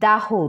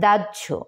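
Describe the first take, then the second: First: The word ends with a plain h sound. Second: The word ends with a j-like sound. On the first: The speaker calls it wrong. "অনেকে আবার দাহ উচ্চারণ করে" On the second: The speaker calls it right. "আসলে এর সঠিক উচ্চারণ হচ্ছে দাহ্য"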